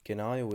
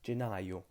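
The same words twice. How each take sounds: First: The first consonant is a hard g sound. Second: The first consonant is a soft j sound. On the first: The speaker calls it wrong. "is not the option here" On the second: The speaker calls it right. "it has to be a soft sound"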